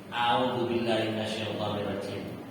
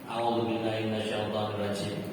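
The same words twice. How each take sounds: First: The Arabic sounds are articulated loosely and casually. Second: The Arabic sounds are articulated loosely and casually.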